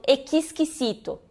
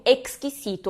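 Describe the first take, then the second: First: "exquisito" mispronounced "ekiskisito"; added vowel in X. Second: "exquisito" said "ekskisito"; crisp K-S cluster opening "exquisito". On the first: Retold or imitated. Teacher imitating Brazilian learners' error, extra vowel in cluster. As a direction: slip an I between K and S in "exquisito". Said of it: "alguns brasileiros". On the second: Shown as a demonstration. Teacher showing students the rule, clean KS cluster. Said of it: "ele tem o som de X".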